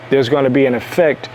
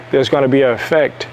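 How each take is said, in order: Both takes have the same delivery.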